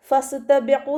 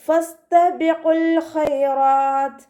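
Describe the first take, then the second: First: ഫസ്തബിഖു cut short, the final l dropped; wrong pronunciation. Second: ഫസ്തബിഖുൽ with its l kept, chanted slowly and high; correct recitation. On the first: Teacher shows students the wrong ഫസ്തബിഖു, ending dropped. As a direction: say ഫസ്തബിഖു without its ending l, as the mistake. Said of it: "എന്ന് ഓതരുത്". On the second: Teacher models the correct ഫസ്തബിഖുൽ, l sounded, chanted. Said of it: "അതുപോലെ ഓതുക കേട്ടോ". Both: Shown as a demonstration.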